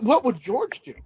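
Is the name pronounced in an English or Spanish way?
English. The name is pronounced the English way. The speaker calls it wrong.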